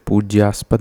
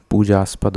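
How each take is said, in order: First: पूज्यास्पद with a y glide after j; wrong form. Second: पूजास्पद with plain "jaa", no y; correct form. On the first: Teacher rejecting a misspelling, पूज्यास्पद with its y sound. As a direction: say "pooj-yaaspad" for पूज्यास्पद. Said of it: "नहीं होता". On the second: Teacher correcting students, पूजास्पद without the y glide. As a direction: say "pooj-aaspad" for पूजास्पद. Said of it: "पूजास्पद होता है". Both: Shown as a demonstration.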